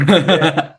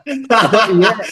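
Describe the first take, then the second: First: Said in the usual way. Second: "Yeah" sliding up high into a questioning rise; doubting yeah. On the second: Shown as a demonstration. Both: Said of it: "it's more like a doubting no".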